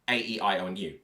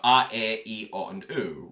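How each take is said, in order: First: The vowels are said like English letter names. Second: The vowels are pure, steady Latin vowel sounds. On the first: "rather than" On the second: "we focus on Latin vowels"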